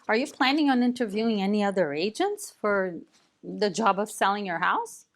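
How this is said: The voice rises at the end.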